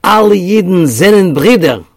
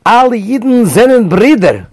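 First: Loud, high Yiddish declaration; loud Yiddish call; declaring in Yiddish. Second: Loud, much higher, eager Yiddish call; smiling Yiddish cry to the couple; beaming declaration. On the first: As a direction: proclaim it out loud to strangers. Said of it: "in Yiddish he declared". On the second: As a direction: reach out with a huge smile. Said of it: "With a huge smile". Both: Retold or imitated.

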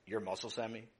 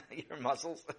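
First: Said in the usual way. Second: "Your muscles?" asked through a laugh, rising at the end. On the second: Acted. Brother mocking Sammy's muscles, laughing disbelief.

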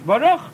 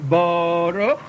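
First: Baruch as bo-RUCH, higher and louder on the last syllable; short, emphatic bo-RUCH; correct final stress. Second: Baruch as BOOO-ruch, first syllable drawn way out; slow, exaggerated BOH-ruch, accent too early; wrong first-syllable stress. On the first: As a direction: punch the RUCH of Baruch, rising. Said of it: "it's Baruch". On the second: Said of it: "It's not Baruch". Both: Shown as a demonstration.

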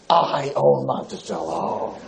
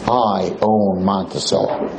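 First: Low, slow, drawn-out threat; menacing club owner. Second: Lightly voiced low, slow boast; owner's threat repeated. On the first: Retold or imitated. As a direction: lean in low and slow like a man who owns the town. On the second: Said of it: "That's what he tells us".

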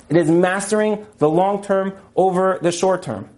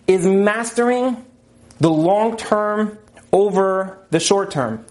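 First: Said in the usual way. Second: Slow, deliberate, each word weighed; slow emphasis. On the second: Shown as a demonstration. Teacher stresses the key idea to the class, slowly. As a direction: lay it out slowly so it sinks in. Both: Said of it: "I'll say that again".

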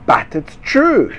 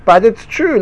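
First: Slow indignant. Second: Higher and louder, "true" hit hard; "true" punched, raised and loud; stress on true. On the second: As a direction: insist on "true". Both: Shown as a demonstration.

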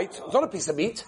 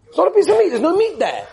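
First: Said in the usual way. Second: Much higher and louder, outraged; indignant shout. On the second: Retold or imitated. Rabbi mimics the questioner's indignant shout. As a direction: blurt it out as a loud protest.

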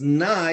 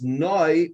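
First: Nai with an open "eye" vowel; Nai, ending eye rather than oy. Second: Noi with a rounded "oy" vowel; Noi, ending oy rather than eye. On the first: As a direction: say Nai to rhyme with sky. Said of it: "If it's pronounced Nai". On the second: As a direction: say Noi to rhyme with boy. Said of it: "it has to be pronounced Noi". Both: Shown as a demonstration.

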